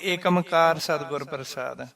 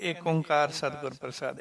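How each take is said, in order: First: The opening is run together as one word, Ekamkar. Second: The opening is said as two words, Ik Onkar. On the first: Some people say it this way. The speaker calls it wrong. "ਉਹ ਕਹਿਣਗੇ ਏਕਮਕਾਰ ਸਤਿਗੁਰ ਪ੍ਰਸਾਦ" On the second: This is the pure pronunciation. The speaker calls it right. "ਅਸੀਂ ਕਹਿੰਦੇ ਇੱਕ ਓੰਕਾਰ ਸਤਿਗੁਰ ਪ੍ਰਸਾਦ। ਏਦਾਂ ਬੋਲੀ ਦਾ ਹੁੰਦਾ ਸ਼ੁੱਧ ਉਚਾਰਨ"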